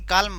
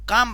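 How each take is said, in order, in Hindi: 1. L ध्वनि उच्चारित होती है। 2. L ध्वनि मौन रहती है। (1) "न कि काल्म बनता है" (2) "सी ए एल एम काम बन जाता है"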